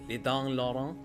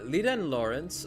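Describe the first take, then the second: First: It is read in a put-on French accent. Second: It is read in the speaker's ordinary accent.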